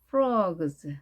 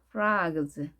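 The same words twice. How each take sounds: First: The vowel is rounded, like an oh sound. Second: The vowel is open, like an ah sound.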